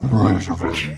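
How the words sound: It is said in a monster-like voice.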